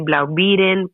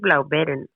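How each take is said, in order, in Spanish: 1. La doble E suena como la 'ee' del inglés. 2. La doble E suena como la e larga del alemán. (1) "porque al ser doble E nos vamos al inglés" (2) "pero creo que es Blaubeeren"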